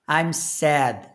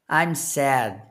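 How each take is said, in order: Both takes have the same delivery.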